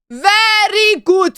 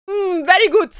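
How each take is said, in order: First: Slow praise. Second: Said in the usual way. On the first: Pretend. Repeats praise slowly.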